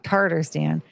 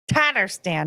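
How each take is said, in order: First: The first syllable has an r sound. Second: The first syllable has no r sound. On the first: The speaker calls it wrong. "not Tartarstan" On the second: The speaker calls it right. "It says Tatters, ta, Tatarstan"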